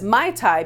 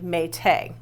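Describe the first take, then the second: First: It is said in the modern English way. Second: It is said in the original Tahitian way. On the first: "we pronounce this now as Mai Tai because that's how it's spelled" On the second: "the original pronunciation was actually Mete"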